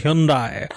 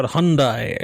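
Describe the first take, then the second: First: "Hyundai" said as HYUN-dai; "Hyundai" with first syllable like "hyoon"; variant pronunciation. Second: "Hyundai" said as HUN-dai; "Hyundai" with first syllable like "hun"; alternative pronunciation. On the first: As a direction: say "Hyundai" with a y-glide and oo-like first vowel. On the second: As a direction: say "Hyundai" without the y-glide. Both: Shown as a demonstration. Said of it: "which the correct pronunciation is".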